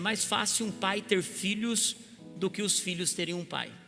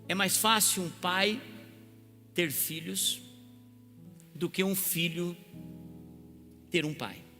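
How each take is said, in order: First: It is said at normal speed. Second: It is said very slowly.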